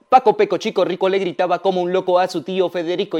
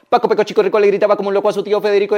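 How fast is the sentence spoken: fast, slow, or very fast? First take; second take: fast; very fast. First: It is spoken at a faster pace. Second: It is spoken extremely fast. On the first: "Lo voy a decir ahora más rápido" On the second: "Lo decimos súper rápido"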